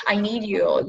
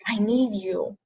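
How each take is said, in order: First: Said in the usual way. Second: Emotional plea. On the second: Real, not acted. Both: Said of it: "I'm gonna get all emotional".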